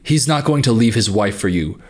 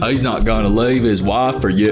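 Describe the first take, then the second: First: It is read in the speaker's ordinary voice. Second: It is said in an imitated Forrest Gump accent.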